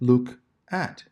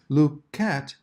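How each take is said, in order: First: The two words are said separately with a break. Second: The two words run together without a break. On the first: The speaker calls it wrong. "rather than look at" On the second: The speaker calls it right. "linking words together, as in look at"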